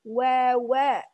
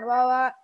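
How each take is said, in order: First: The w sounds are slow and clearly rounded. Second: The w sounds are rushed and unclear. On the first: The speaker calls it right. "tapi wawa. Jadi mesti jelas pengucapannya" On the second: The speaker calls it wrong. "Jadi bukan wawa"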